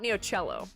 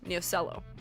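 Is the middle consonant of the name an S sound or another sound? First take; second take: another sound; S sound. First: The middle consonant is not an S sound. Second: The middle consonant is an S sound. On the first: The speaker calls it wrong. "Not Neocello" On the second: The speaker calls it right. "Kind of pronounced with an S"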